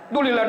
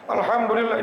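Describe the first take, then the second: First: It is said fast and clipped. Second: It is said slowly and fully. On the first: The speaker is impatient and rushing to finish. The speaker calls it wrong. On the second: The speaker is patient and not chasing a count. The speaker calls it right. "Kalau sabar pelan-pelan"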